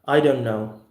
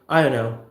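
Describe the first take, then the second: First: The t is held and the words run together. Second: The words are squashed into one blurred phrase. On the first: "We're gonna say simply as I don't know" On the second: "extremely extreme colloquial reduction"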